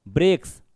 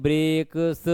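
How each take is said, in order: First: Said in the usual way. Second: "ब्रेक्स" pulled apart into bre-k-s; broken-up reading. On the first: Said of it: "इसको कैसे पढ़ रहे हैं हम". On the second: Shown as a demonstration. Teacher shows class how not to read it, "ब्रेक्स" split into bre-k-s. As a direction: say "ब्रेक्स" in separate drawn-out sounds, bre... k... s. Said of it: "ऐसा तो पढ़ेंगे नहीं हम".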